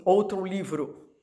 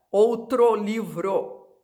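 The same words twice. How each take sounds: First: "outro livro" with outro ending in u, outru; relaxed "outro livro", final o reduced to u; colloquial pronunciation. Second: "Outro livro" said slowly, every o spelled out as o; stiff, slow "Outro livro", final o kept as o; overcareful spelling pronunciation. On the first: Teacher showing how Brazilians really say it. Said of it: "português coloquial". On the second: Teacher mocking a stilted reading of the phrase. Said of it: "ninguém fala assim". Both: Shown as a demonstration.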